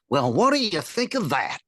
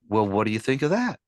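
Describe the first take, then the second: First: The voice falls at the end of the question. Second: The voice rises at the end of the question. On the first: This is the 1940s style of speech. The speaker calls it right. "The voice go down on a question" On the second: This is a modern way of asking. The speaker calls it wrong. "a kid would would not say"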